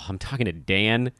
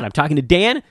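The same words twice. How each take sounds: First: It sounds flat and let down. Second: It sounds thrilled and starstruck. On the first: Talking to him is a letdown. The speaker calls it right. "you're using the wrong inflection. You should be saying, oh" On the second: Talking to him is a big deal. The speaker calls it wrong. "oh my God"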